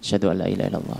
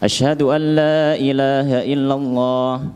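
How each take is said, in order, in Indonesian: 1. Frasa ini diucapkan lirih, dengan suara pelan. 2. Frasa ini diucapkan keras, dengan suara lantang.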